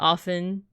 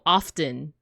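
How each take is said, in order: First: The T in the middle is silent. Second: The T in the middle is pronounced. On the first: The word is said in ordinary conversation. "I don't say the T" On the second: The word is read by itself from a list. "when I read this I was like, oh, often"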